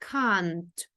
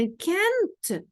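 First: The vowel is an open 'a' sound. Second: The vowel is an 'e'-like sound. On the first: The speaker calls it right. "а кажемо через звук а" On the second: The speaker calls it wrong. "тоді ми кажемо не can't"

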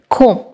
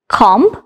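First: No 'b' sound is heard at the end of the word. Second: A 'b' sound is heard at the end of the word. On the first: The speaker calls it right. "The right pronunciation will be comb" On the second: The speaker calls it wrong. "No. It's wrong pronunciation"

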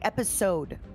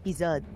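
First: The middle consonant sounds like an s. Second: The middle consonant sounds like a z. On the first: This is the usual English way of saying it. "but it's apparently episode" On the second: This is the French way of saying it. "in French it's épisode"

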